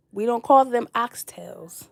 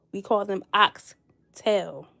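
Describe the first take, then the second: First: Oxtails said slowly, the final s of "oxtails" sounded clearly; the wrong plural "oxtails" with a clear s, said as a correction; correcting pronunciation. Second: "oxtail" very slow, no s at the end; proper pronunciation. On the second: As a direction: say "oxtail" slowly and firmly, with no final s. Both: Shown as a demonstration. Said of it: "Rule number one".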